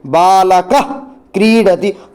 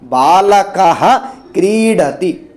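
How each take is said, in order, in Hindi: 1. अंतिम 'h' ध्वनि आधी है, कंठ से बनती है। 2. अंतिम 'h' ध्वनि पूरी बोली जाती है। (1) "थोड़ा सा जो विसर्ग का हम पूरा उच्चारण नहीं कर रहे हैं" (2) "पूरा उच्चारण होगा"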